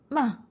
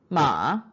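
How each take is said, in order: First: The pitch falls sharply from high. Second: The pitch dips low, then rises.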